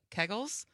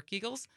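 First: "Keggles" with a short e, like "keg"; first-guess pronunciation. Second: "Keagles" with a long ee; alternative pronunciation. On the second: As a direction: say "Keagles" with "kee" as the first syllable. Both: Shown as a demonstration. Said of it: "or Keagles".

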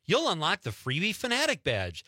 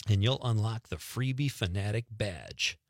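First: Higher-pitched scornful repeat; indignant mocking quote. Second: Said in the usual way. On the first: Host mocking a sandwich chain's reward offer, indignant. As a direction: throw the silly slogan back in disbelief.

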